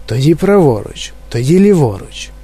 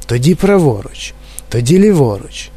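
The two takes are said the same way.

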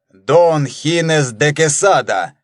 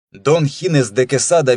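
First: Name pronounced slowly with a fall; Дон Хинес де Кесада, slow and grand; solemn voice. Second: Said in the usual way. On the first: Acted. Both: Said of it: "торжественным голосом начал".

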